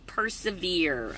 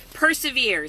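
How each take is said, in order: First: Persevere, drawn out slowly and softly; announcing the word. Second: Said in the usual way. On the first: Shown as a demonstration. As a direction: unveil persevere slow and low. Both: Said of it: "Second P word".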